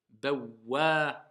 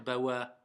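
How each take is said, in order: First: The w sound is held and doubled. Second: The w sound is short and single. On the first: The speaker calls it right. "il y a une shedda... je vais dire bawa" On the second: The speaker calls it wrong. "je ne vais pas dire bawa"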